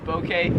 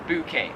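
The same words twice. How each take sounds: First: "bouquet" as "bo-kay"; soft O pronunciation. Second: "bouquet" as "boo-kay"; Australian pronunciation. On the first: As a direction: say the first syllable of "bouquet" like "bow" and arrow. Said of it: "a soft O". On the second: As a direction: round "bouquet" to start on boo. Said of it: "Here in Australia". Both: Shown as a demonstration.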